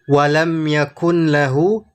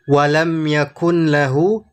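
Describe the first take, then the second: First: The n sound is kept before lahu. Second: The n sound is kept before lahu.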